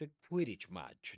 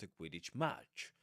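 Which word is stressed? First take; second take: Quidditch; match. First: The stress falls on Quidditch. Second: The stress falls on match. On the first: The speaker calls it right. "Compound nouns take their main stress on the first item" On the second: The speaker calls it wrong. "not a Quidditch match"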